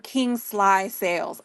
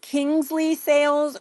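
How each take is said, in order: First: The name's middle syllable sounds like 'sly'. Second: The name's middle syllable sounds like 'lee'. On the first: "or King Sly Sales?" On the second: "Is it Kingsley Sales"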